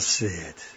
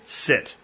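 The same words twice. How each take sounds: First: The word is said softly, as a plea. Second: The word is said firmly, as a command. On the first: The dog is being coaxed, not told. The speaker calls it wrong. "Not, oh, come on now" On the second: The dog is expected to obey. The speaker calls it right. "I would say"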